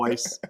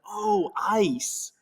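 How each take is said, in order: First: "ice" as "oice" in broad Australian; broad Australian accent. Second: High, drawn-out American "ice" of sudden understanding; American accent, pitched up as realization lands; imitated American accent. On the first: Shown as a demonstration. Explaining why the shop lady misunderstood, broad Australian accent. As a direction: lean into the Australian vowel in "ice". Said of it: "must have been saying it ice". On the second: Shop lady finally understanding what he wants, American accent. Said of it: "And she's like".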